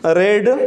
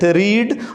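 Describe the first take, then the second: First: The vowel is short, like 'red'. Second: The vowel is long, like 'reed'. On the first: It is the past form of the verb. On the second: It is the present form of the verb.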